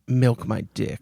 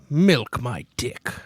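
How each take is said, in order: First: It is said in a plain, normal accent. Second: It is said in a put-on pirate accent.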